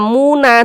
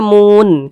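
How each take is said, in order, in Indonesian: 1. Kata ini berakhir dengan bunyi vokal tambahan. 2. Kata ini berakhir pada konsonan n. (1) "Tidak dibaca muna" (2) "tapi dibaca mun"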